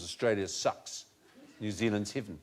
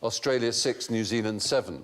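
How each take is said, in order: First: It is said in a New Zealand accent. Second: It is said in a neutral accent.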